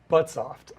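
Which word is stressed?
but. The stress falls on the first word. The speaker calls it wrong. "rather than "but.""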